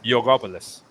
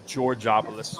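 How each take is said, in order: First: The name begins with a Y sound. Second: The name does not begin with a Y sound. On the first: This is the Greek way of saying the name. "but it's Yogopoulos, right? ... the G is a Y" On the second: This is the English-side way of saying the name. "you'd say, or Georges, the the English side"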